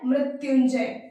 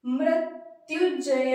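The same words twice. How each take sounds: First: मृत्युंजय said clearly as mri-tyun-jay, firmly and loud; correct pronunciation. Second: मृत्युजयंतय read slowly as written, wrongly; wrong spelling read out. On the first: Teacher firmly models the correct word for students. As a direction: give the correct मृत्युंजय with a clean nasal before जय. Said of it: "तो ये क्या है". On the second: Teacher reads the misspelt word slowly to the class. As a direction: sound out मृत्युजयंतय syllable by syllable as misspelt. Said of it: "देखिए लिखा क्या है". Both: Shown as a demonstration.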